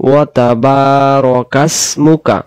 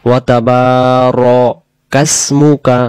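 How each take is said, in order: The two takes are said the same way.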